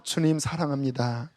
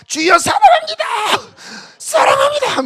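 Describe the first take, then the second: First: Quiet, hushed prayer; soft whisper. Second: Shouted high, crying out in prayer; loud crying out. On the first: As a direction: murmur it gently to the Lord. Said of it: "속삭여도 돼요". (조용히 속삭이는 기도) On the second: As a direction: cry it out at full voice. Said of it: "이거는 좀 안 맞아요". (크게 외치는 기도) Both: Shown as a demonstration.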